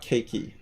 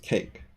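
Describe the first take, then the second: First: "cakey" as CAKE-ee, two syllables; silent E wrongly sounded. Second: "cake" as one syllable ending on K; one clean beat on "cake"; silent E. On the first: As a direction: pronounce the final E in "cakey". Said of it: "you don't say the E". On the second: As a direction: say "cake" with no E sound at the end. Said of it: "you don't say the E at all". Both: Shown as a demonstration.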